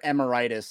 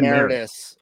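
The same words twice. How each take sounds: First: The word is pronounced like a disease name. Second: The word is pronounced in the usual way.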